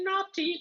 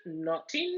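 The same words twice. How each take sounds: First: Naughty squeaked very high then falling; squealing mock scold; teasing poltergeist. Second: Drawn-out naughty with a rising lilt; mock scolding poltergeist squeak; teasing poltergeist. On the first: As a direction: sing it high like a giggling ghost. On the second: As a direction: tease it like a giggling ghost. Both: A narrator's reading. Peeves teasing the students.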